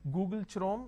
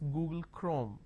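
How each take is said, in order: First: Chrome begins with a 'ch' sound as in chin. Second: Chrome begins with a 'k' sound. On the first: The speaker calls it wrong. "I say Chrome, like Google Chrome? No" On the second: The speaker calls it right. "The pronunciation is Google Chrome"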